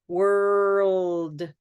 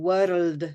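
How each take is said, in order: First: The R is held without any tongue tap. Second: The R is a quick tongue tap. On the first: The speaker calls it right. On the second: The speaker calls it wrong.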